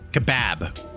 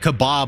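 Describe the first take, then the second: First: Kebab is said with a British pronunciation. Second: Kebab is said with an American pronunciation. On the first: "They say kebab" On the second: "they don't say kebab over in England"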